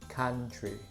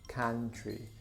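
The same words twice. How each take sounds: Both takes have the same delivery.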